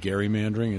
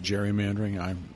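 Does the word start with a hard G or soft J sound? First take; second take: hard G; soft J. First: It begins with a hard G sound. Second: It begins with a soft J sound. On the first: It follows how the namesake's name is said. "I call it gerrymandering" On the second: It follows common usage. "everybody else pronounces it gerrymandering"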